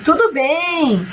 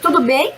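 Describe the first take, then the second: First: It is said with statement intonation. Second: It is said with question intonation. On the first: It states that things are fine. "Aí vocês respondem" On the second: It asks whether things are fine. "É uma pergunta"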